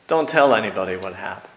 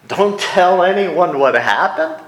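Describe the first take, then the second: First: Said in the usual way. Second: "tell" pitched up, louder, with a rising question at the end; amazed question, louder and higher; incredulous. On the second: Shown as a demonstration. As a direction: repeat the order in disbelief.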